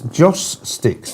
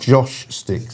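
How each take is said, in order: First: The first word ends with a clear s sound. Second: The first word ends with an sh sound. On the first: The speaker calls it right. "it's Joss Sticks" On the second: The speaker calls it wrong. "not Josh Sticks"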